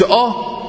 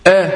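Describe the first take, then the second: First: آ thick and backed, like "aw"; wrong heavy vowel. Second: آ thin and fronted, like "æ"; light vowel. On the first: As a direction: show the faulty heavy آ. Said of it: "ما قلتش". (آ مفخمة خطأً) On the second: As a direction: demonstrate آ without any heaviness. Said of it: "بقية الحروف يا إخواننا مرققة". (آ مرققة) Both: Shown as a demonstration.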